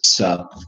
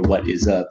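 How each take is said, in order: First: The phrase is squeezed into one syllable. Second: The phrase is said in full, three syllables. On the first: "I love that lazy English" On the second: "instead of saying"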